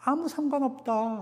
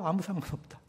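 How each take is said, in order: First: Paul's words pitched up high and emphatic; quoting Paul with a high, insistent 아무. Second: Soft, falling echo of Paul's words; quiet repeat. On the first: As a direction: lift 아무 high, then let it go soft. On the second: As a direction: let 아무 상관없다 fall away softly. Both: Retold or imitated. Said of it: "바울이 뭐라 그래요?".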